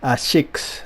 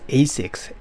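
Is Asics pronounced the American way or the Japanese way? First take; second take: Japanese; American. First: It is said with a Japanese pronunciation. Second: It is said with an American pronunciation. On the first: "the Japanese brand uh, Asics" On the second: "Americans pronounce ... as Asics"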